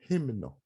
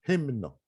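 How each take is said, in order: The two takes are said the same way.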